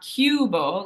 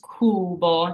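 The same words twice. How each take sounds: First: The vowel after the C sounds like 'yoo'. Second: The vowel after the C is a plain 'oo'. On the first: The speaker calls it wrong. "it's not cubo, like the English U" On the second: The speaker calls it right. "In Italian, it's cubo. It's just that U"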